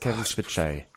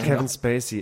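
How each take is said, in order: First: The surname is said with a 'ts' sound. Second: The surname is said with a plain 's' sound. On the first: The speaker calls it right. "es heißt Kevin Spitzay" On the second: The speaker calls it wrong. "Es heißt nicht Kevin Spacey"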